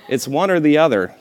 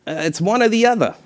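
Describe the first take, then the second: First: Said in the usual way. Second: Higher, nasal impression of the artist; Frank Stella impression. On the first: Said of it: "he said in that famously nasal voice". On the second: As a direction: mimic a nasal, bored artist. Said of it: "I should do an impression".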